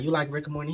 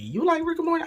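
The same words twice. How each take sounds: First: Said in the usual way. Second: Much higher, louder, thrilled disbelief; giddy high-pitched fan question; excited squeal. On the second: Retold or imitated. Re-asks the question, much more excited.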